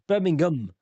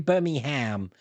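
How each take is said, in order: First: The last syllable is a reduced 'um'. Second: The last syllable is a full 'ham'. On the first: The speaker calls it right. "We never pronounce ham" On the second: The speaker calls it wrong. "you Americans pronounce ham"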